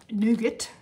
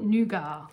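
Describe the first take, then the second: First: The word is said in a non-Australian way. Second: The word is said the Australian way. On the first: "not nougat" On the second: "We call it nougat in Aussie land"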